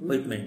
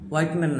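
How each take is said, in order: First: The first syllable sounds like 'wit'. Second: The first syllable sounds like 'white'. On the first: The speaker calls it right. "এটা হুইট হুইটম্যান হুইটম্যান ঠিক আছে" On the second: The speaker calls it wrong. "হোয়াইটম্যান না"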